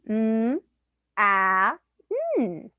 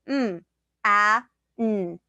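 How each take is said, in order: First: The sounds are said in a very high pitch. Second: The sounds are said in a lower, normal pitch. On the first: The speaker calls it wrong. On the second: The speaker calls it right.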